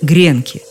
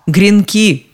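First: The stress is on the first syllable. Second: The stress is on the last syllable. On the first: This is the form people are used to today. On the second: This is the older form given in the dictionary.

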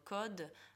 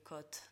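First: It ends in a voiced d sound. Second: It ends in a voiceless t sound. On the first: The speaker calls it right. "чтобы было «код»" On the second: The speaker calls it wrong. "а не «код»"

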